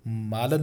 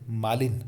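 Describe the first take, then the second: First: मालन ending in lan; mispronunciation demo. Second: मालिन ending in lin; correct pronunciation. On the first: Teacher shows the mistake, मालन mispronounced as maalan. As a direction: say मालन with a, not i. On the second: Teacher corrects the word, मालिन pronounced maa-lin. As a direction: say मालिन with a clear i. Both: Shown as a demonstration. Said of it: "मालन नहीं".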